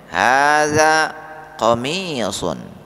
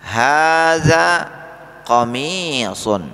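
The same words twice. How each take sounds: First: Hadza qamisun with qamisun drawn out slowly; teacher's slow demo answer; slow model answer. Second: Hadza said higher and louder, qamisun drawn out slowly; teacher's louder repeat for students; emphatic slow model. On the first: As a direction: model the answer clearly to repeat. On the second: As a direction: repeat the answer with more force. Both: Shown as a demonstration. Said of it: "Kami ulangi".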